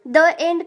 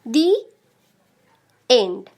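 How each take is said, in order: First: The word 'the' sounds like 'thuh'. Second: The word 'the' sounds like 'thee'. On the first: The speaker calls it wrong. "द end कभी कहते हैं क्या?" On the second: The speaker calls it right. "तो हम लोग दी का प्रयोग करेंगे"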